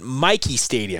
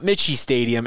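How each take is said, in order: First: The name's middle consonant is a 'k' sound. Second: The name's middle consonant is a 'ch' sound. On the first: The speaker calls it right. "But Mikey Stadium" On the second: The speaker calls it wrong. "not Mitchie Stadium"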